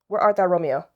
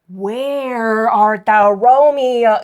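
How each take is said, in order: First: It is said flatly, without expression. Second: It is said expressively, like a performer.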